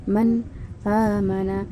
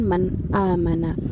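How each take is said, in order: First: A brief breathless pause comes after man. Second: The words run on with no pause. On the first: "berhenti sejenak tanpa nafas" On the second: "bacaan seperti biasa"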